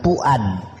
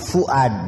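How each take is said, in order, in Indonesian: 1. Namanya diawali dengan bunyi p. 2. Namanya diawali dengan bunyi f. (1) "bukan puad. Sekalipun P dengan F hampir mirip" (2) "Ini namanya fuad"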